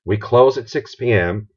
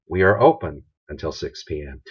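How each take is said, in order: First: Said in the usual way. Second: Positive phrasing. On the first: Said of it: "See the difference there?". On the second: Shown as a demonstration. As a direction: make it sound welcoming. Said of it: "What do we want to stress?".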